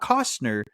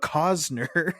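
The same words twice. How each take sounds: First: The name is said with an S-T sound. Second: The name is said with a Z sound. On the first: The speaker calls it wrong. "not Costner" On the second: The speaker calls it right. "but Costner / With the Z"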